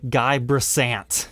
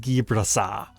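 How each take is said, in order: First: The surname is read as English spelling suggests. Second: The surname is said with French pronunciation. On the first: The speaker calls it wrong. "you don't pronounce it the way it looks" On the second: The speaker calls it right. "his name is French"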